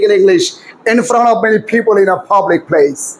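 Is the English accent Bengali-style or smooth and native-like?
native-like. It has aspirated stops and smoothly linked words. "এই দশটা সূত্র প্রয়োগ করে এবার আমি বলি"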